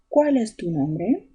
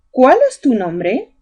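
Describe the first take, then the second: First: Slow, leaning on the accent in Cuál, rising at the end; slow accented question. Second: Said in the usual way. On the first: Shown as a demonstration. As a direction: spell out the question slowly for pupils, stress on Cuál. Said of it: "Ahí está el acento". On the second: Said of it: "llevan signo de interrogación".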